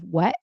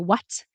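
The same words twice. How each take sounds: First: The final T is a glottal stop. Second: The final T is clearly released. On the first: "Glottal stop" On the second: "you probably pronounce it as a true T"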